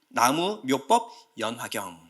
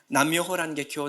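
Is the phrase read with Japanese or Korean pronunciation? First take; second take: Korean; Japanese. First: The phrase is read with Korean pronunciation. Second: The phrase is read with Japanese pronunciation. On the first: "나무묘법 연화경이라고 해요" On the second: "일본식으로 발음하면"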